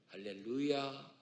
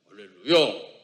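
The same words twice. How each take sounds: First: It is said softly and sweetly. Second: It is said forcefully with a strained neck.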